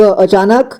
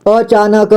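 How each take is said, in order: First: Said in the usual way. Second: "अचानक" split as a-chaa-na-ka; beginner's reading of "अचानक" as a-chaa-na-ka; sounded out letter by letter. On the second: Shown as a demonstration. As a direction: voice each syllable of "अचानक". Teacher sounds out, then reads whole.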